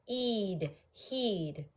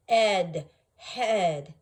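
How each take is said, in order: First: "Eed, heed" sounded out with a long ee; long vowel try. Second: "Ed, head" sounded out with a short e, louder; short vowel try. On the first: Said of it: "We try the long sound first". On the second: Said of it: "let's try the other one". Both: Shown as a demonstration.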